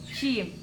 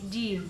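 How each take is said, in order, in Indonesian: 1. Jim basah, terdengar dekat ke c. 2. Jim kering, terdengar dekat ke d. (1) "Jika terlalu basah, akan mengarahkan kepada bunyi jim, c" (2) "Jika terlalu kering, akan mengarahkan ke huruf d, seperti jim"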